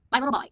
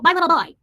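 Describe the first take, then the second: First: A touch of cooing pet talk, barely raised; a gentle echo of the baby voice; Finn voice, softer. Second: Put-on high, loud cooing baby talk; Finn voice. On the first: Acted. Streamer repeating the pet name to Finn in mild cooing. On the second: Streamer cooing at her cat Finn in high, loud baby talk. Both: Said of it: "Buffy likes the Finn voice".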